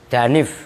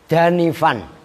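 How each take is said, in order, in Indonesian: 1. Kata itu berakhir mendadak tanpa akhiran -an. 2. Kata itu berakhir dengan akhiran -an yang penuh. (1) "itu dibaca da danif" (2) "itu asalnya danifan"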